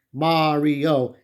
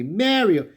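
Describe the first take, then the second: First: "Mario," said as MAH-rio with a broad ah vowel; Japanese pronunciation. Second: "Mario." said as MEH-rio with the open eh vowel; Brooklyn pronunciation. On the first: Reviewer explaining the Japanese spelling, saying MAH-rio. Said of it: "it is Mario". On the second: Reviewer showing how the Mario family says Mario, MEH-rio. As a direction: give "Mario." the New York MEH-rio sound. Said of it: "Mario is pronounced Mario". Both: Shown as a demonstration.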